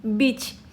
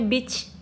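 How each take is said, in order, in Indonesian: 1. Kata ini berakhir dengan bunyi 'ch'. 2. Kata ini berakhir dengan bunyi 'ch'.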